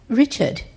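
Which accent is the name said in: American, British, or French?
British. The name is said in a British accent. "he goes to Britain and they're like"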